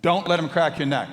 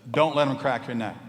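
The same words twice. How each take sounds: First: Much louder, higher, nagging; the voice in his head shouting over him; shouted warning from the inner voice; insistent inner voice. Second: Loud warning inner voice; the voice in his head insisting; stern inner warning, pushed loud. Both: Retold or imitated.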